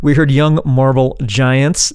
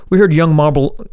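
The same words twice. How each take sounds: First: Said in the usual way. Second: Mumbled, slurred words; tongue tripping over the name; marbles in mouth. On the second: Real, not acted. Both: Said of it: "sorry, I got marbles in my mouth".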